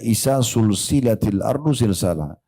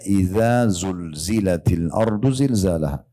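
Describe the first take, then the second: First: The words are said with hissing s sounds. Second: The words are said with buzzing z sounds. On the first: The word comes to mean joined together. The speaker calls it wrong. "Misal ibu bacanya pakai sin" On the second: When the earth is shaken violently. The speaker calls it right. "zulzila pakai zai"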